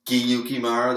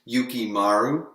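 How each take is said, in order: First: The name starts with a G sound. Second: The name starts with a Y sound. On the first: The speaker calls it wrong. "I don't know how to go Giyukimaru. That doesn't sound like a proper name" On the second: The speaker calls it right. "I believe it's still pronounced Yukimaru"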